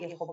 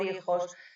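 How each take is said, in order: First: The final s is aspirated like a soft h. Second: The final s is pronounced as a clear s.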